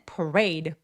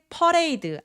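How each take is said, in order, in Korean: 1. 영어 발음으로 말했어요. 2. 한국식으로 음절마다 끊어서 발음했어요. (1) "parade라고 하지" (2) "퍼레이드 아니에요"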